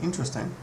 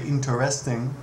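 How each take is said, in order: First: The second syllable's vowel is nearly dropped. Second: Every syllable, including the second, is fully pronounced. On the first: This is how people usually say it. "You say interesting" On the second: Hardly anyone says it this way. "very few people say interesting"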